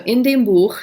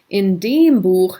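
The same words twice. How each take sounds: First: The word dem is not emphasized. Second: The word dem is emphasized. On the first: It refers to the book in general. "sounds like in the book" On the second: It points to that particular book. "sounds like in that book"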